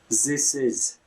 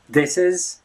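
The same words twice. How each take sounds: First: The word 'this' begins with a z sound. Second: The word 'this' begins with a voiced th. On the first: "Pronounce the, the voice th sound as z" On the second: "instead of saying simply this is"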